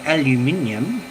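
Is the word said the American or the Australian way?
Australian. The word is said the Australian way. It is the usual local form. "around here we call it aluminium"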